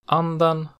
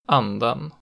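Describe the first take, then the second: First: Pitch rises to a single peak after the stressed vowel. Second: Pitch falls on stressed vowel, then peaks again after. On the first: "it has a single pitch peak in accent 1" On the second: "a double peak in accent 2"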